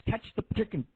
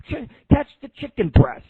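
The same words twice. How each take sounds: First: Said in the usual way. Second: Higher and louder, like yelling across the kitchen; playful shout. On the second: Retold or imitated. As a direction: call it out to a coworker across the room. Retold KFC chicken-throwing game.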